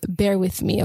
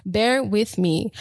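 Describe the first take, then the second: First: Said in the usual way. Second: Slow, drawn-out bear with me, ending on a rise. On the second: Shown as a demonstration. Podcaster asking viewers for patience, slow and drawn out. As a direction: ease off and stretch out Bear with me. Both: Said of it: "If I'm talking really fast".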